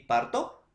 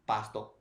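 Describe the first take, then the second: First: "Parto" with an R before the T; high-pitched "Parto", set up for comparison; pronunciation demonstration. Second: "pasto" with an S before the T; lower, softer "pasto" as the answering word; pronunciation demonstration. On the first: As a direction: sound out "Parto" with its R. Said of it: "¿Pronunciación, profesor, similar?". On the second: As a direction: sound out "pasto" with its S. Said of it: "En la R y en la S". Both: Shown as a demonstration.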